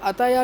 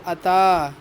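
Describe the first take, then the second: First: It ends with an extra ya syllable. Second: It ends on a long a sound. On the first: The speaker calls it wrong. "इसको अताया नहीं पढ़ेंगे" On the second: The speaker calls it right. "बल्कि अता पढ़ेंगे"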